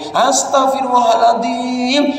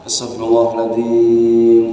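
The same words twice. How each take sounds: First: It is said in an annoyed, scolding tone. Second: It is said in a sincere, heartfelt tone. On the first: It sounds like grumbling rather than asking forgiveness. The speaker calls it wrong. "kalau istighfar itu intonasinya yang beda. Karena ada anak nakal ngomong gini" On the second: It is a sincere plea for forgiveness. The speaker calls it right. "Dan istighfar itu yang merasuk"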